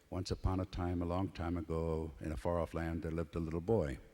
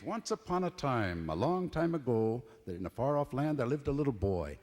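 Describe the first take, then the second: First: It is read plainly, like studying a text. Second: It is told expressively, as to an audience.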